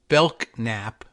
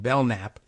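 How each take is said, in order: First: The k sound in the middle is pronounced. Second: The k before n is silent, as in knight. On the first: Someone else says it this way. "he says Belknap" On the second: The speaker had been saying it this way. "the K N Knight pronunciation"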